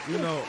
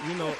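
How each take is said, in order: Both takes have the same delivery.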